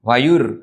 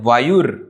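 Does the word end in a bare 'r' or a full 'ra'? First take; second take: bare r; bare r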